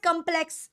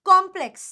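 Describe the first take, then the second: First: Complex with a short "kum" first syllable; the mistaken "kumplex" form of complex; wrong complex. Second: Complex with an open "KOM" first syllable; firm model of complex, opening on a round "kom"; correct complex. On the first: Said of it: "it is not complex". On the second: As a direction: punch complex louder as "KOM-pleks". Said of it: "it is complex". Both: Shown as a demonstration.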